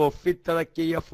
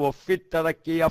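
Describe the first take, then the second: The two takes are said the same way.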